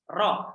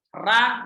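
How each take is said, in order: First: The vowel after the r sounds like o. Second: The vowel after the r sounds like a. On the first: The speaker calls it right. "ro adanya" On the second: The speaker calls it wrong. "Ra nggak ada"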